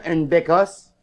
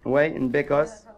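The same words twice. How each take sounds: First: Said in the usual way. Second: Bécosse said lower, softer and slow; drawn-out repeat. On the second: Shown as a demonstration. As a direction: savour the word bécosse.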